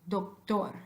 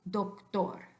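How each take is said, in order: No difference in how they are said.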